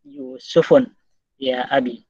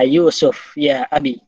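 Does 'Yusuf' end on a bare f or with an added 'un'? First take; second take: added un; bare f. First: The name ends with an added un sound. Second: The name ends on a bare f sound. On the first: The speaker calls it right. "Padahal penyair menghendaki fa-nya itu ditanwin" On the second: The speaker calls it wrong. "Akan dimatikan bunyi fa-nya"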